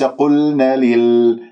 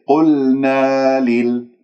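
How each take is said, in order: First: The vowel after the n is cut short. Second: The vowel after the n is held long. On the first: The speaker calls it wrong. "وليس قلنا لل" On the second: The speaker calls it right. "قلنا لل وليس"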